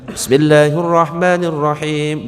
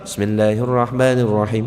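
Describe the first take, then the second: First: It is recited loudly. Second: It is recited more softly.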